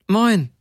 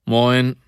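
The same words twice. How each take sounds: First: Pitched-up short greeting, falling at the end; two tones higher. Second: Said in the usual way. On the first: A narrator's reading. Woman returns the heater's greeting, higher. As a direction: answer in a higher, louder voice. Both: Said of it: "zwei volle Töne höher".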